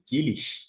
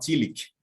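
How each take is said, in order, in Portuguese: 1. Termina com um chiado suave, no estilo alemão. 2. Termina com um som de k duro, no estilo inglês. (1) "Uma forma tentando se aproximar daquela pronúncia mais alemã" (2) "o pessoal que pensa de uma maneira mais inglesada"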